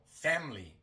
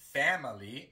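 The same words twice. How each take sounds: First: The unstressed middle vowel is dropped entirely. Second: The unstressed middle vowel is fully pronounced. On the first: The speaker calls it right. "Omitimos la I" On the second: The speaker calls it wrong. "Normalmente no decimos family"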